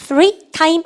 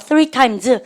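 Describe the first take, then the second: First: "Three time" with no final s; "Three time" ending bare on the m; wrong plural demo. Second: "Three times" with a sounded final s; "Three times", plural ending clearly sounded; corrected plural. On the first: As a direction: say "Three time" slowly, leaving off the s. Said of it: "아니죠". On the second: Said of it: "Three time 아니죠". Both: Shown as a demonstration.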